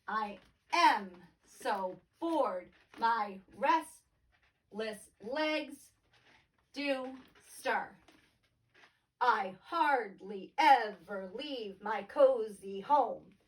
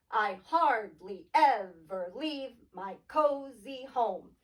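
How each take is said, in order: First: Slow metered reading of the verse; iambic reading. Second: Slow reading with hardly and home leaned on; slow, beat-marking reread; metered line reread. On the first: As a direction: read slowly with am and legs on the beat. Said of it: "Often you'll see this written". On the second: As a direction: read the line to its iambic beat. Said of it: "Unstressed, stressed, unstressed, stressed". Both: Shown as a demonstration.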